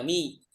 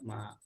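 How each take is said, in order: First: The word ends with an 'i' vowel. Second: The word ends with an 'a' vowel. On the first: The speaker calls it wrong. "bukan dibaca mi" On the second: The speaker calls it right. "tapi tetap ma"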